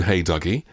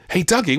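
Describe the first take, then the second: First: Said in the usual way. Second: High-pitched thrilled repeat; mock excitement. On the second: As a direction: echo the title like an excited parent. Thrilled mother repeats the title.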